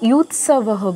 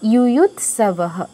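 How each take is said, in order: First: The syllable 'yu' is said once at the start. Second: The syllable 'yu' is said twice at the start. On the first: The speaker calls it wrong. "এটা অনেকেই ইউথ সাবাহ বলেছেন" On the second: The speaker calls it right. "একদম ঠিক"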